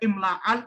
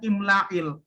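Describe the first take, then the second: First: The vowel before the final l is a. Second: The vowel before the final l is i. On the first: The speaker calls it wrong. "Nggak dibaca imla'al" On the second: The speaker calls it right. "Maka dibacanya di kasroh. Jadinya bacanya imla'il"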